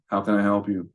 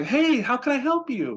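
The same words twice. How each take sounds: First: Flat, lower, joyless "How can I help you?"; hint of a bored Walmart cashier; bored, miserable clerk. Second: Much higher, bubbly over-the-top "Hey, how can I help you?"; hammed-up perky phone voice; way too quirky. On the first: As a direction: sound like you hate your job. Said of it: "someone at Walmart that hates their life". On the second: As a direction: overdo the cheer, too quirky. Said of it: "now I sound way too quirky". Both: Shown as a demonstration.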